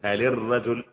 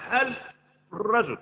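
First: The l of hal is followed by an i vowel. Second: The l of hal has no vowel after it. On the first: The speaker calls it right. "محرك اللام جات بالكسر" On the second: The speaker calls it wrong. "ما اقدرش اقول هل الرجل، هذا مستحيل"

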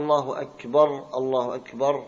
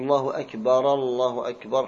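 First: The final r of akbar takes an a vowel. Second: The final r of akbar has no vowel. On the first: "خطأ" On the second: "خطأ"

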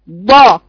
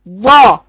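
The two takes are said the same way.

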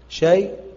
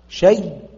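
First: A light y ends it, fully silent. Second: A doubled y ends it, fully silent. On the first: The hamza's vowel is moved back and the pause is fully silent. "نقل بسكون محض" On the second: The hamza is merged into the y and the pause is fully silent. "وإبدال مع إضغام بسكون محض"

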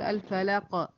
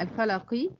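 First: The final q stops with a slight bounce. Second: The final q is followed by a short i vowel. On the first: The reciter pauses at the end of the word. "أما أقف عليها تقول الفلق" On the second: The recitation continues without stopping. "القاف هنا مكسورة"

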